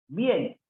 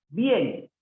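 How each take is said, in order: No difference in how they are said.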